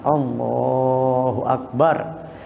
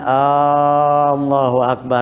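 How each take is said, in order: First: The L sound is held long. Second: The first vowel is drawn out long. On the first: The speaker calls it right. "Kalau yang dibaca panjang boleh lamnya" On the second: The speaker calls it wrong. "Jangan Allahu akbar, batal salat ente"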